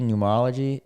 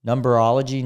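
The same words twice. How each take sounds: First: Said in the usual way. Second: Numberology said with an extra B, num-ber-ology; wrong pronunciation. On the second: Shown as a demonstration. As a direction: stumble into Numberology instead of numerology. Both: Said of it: "is that how you say it?".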